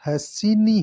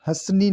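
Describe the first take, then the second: First: हसीनी slowly, with a full "si" inside; correct form. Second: हंसनी in two beats, "hans-nee"; wrong form. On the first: Teacher giving the right form: हसीनी with stressed middle si. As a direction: say "han-si-nee" for हसीनी, leaning on si. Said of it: "सी आएगा". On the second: Teacher rejecting the wrong form: हंसनी as "hans-nee". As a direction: say हंसनी with no vowel after s. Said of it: "नहीं". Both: Shown as a demonstration.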